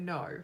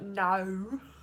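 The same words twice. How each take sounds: First: The vowel is plain, without a broad drawl. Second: The vowel is broad and drawn out. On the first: This is how the speaker really says it. The speaker calls it right. "I say no" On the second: This is how others think the speaker says it. The speaker calls it wrong. "It's not no"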